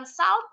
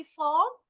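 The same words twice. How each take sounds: First: First salt misread with an A sound, "salt" as "sault". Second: Salt said with a rounded O, "solt". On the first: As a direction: mispronounce salt with an open "a-u" vowel. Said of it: "bacanya bukan salt tapi salt". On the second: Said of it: "tapi salt". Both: Shown as a demonstration.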